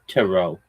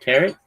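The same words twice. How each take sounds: First: The word does not rhyme with carrot. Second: The word rhymes with carrot. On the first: The speaker calls it right. "It's French" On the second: The speaker calls it wrong. "Like carrot"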